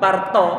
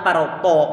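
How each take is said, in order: First: Parto with plain Indonesian to; light to in parto; thin parto. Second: Parto with a heavy raised-tongue to, slowly; thick parto. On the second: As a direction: weigh down the to. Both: Shown as a demonstration. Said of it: "yang kedua kita tebalkan".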